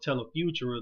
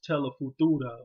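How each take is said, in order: First: The name is said with an American accent. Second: The name is said with a Spanish accent.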